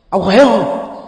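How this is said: It is asked in a harsh, scolding tone. It sounds like a rebuke. "như là một lời nạt nộ thôi"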